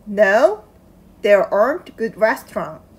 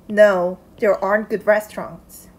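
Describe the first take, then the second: Both takes have the same delivery.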